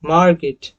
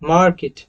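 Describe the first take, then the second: First: It is said in an American accent, with r. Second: It is said in an American accent, with r.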